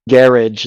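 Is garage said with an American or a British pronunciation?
British. It is said with a British pronunciation. This is how someone from England says it. "every once in a while he'll uh, say garage"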